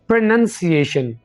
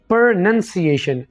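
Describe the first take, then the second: The two takes are said the same way.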